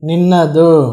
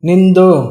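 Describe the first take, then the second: First: The word is said in its full form. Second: The word is said in a shortened form. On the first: This is the standard form. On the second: This is the casual spoken form.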